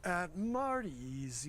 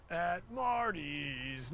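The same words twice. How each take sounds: First: At Marty's lifted up on Marty's, slow and excited; rising jingle. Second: Slow, flat At Marty's without going up; flat jingle. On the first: Owner showing the right way to sing the jingle, rising. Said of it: "You gotta go up on it". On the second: Owner showing the wrong flat way to say the jingle. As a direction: drag At Marty's out flat and dull. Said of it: "No, it's not that". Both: Shown as a demonstration.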